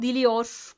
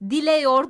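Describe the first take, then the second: First: The vowel before -yor is i. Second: The vowel before -yor is e. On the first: The speaker calls it right. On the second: The speaker calls it wrong.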